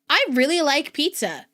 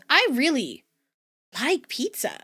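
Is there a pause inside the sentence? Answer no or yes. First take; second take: no; yes. First: It is said smoothly without a pause. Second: It is said with a pause inside. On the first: "When I say" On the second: "there's like a pause and stuff"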